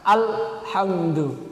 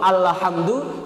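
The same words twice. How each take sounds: First: The l sound is held in a breathless pause. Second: The l sound bounces with no held pause. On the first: "Tapi ketika terlalu menahan jadi saktah" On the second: "Ketika kita gak bisa menahan jadi tawalud"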